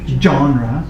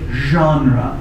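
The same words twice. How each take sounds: First: It starts with a hard J sound. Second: It starts with a soft zh sound. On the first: "with a really hard start. So it's like John" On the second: "Other people say genre"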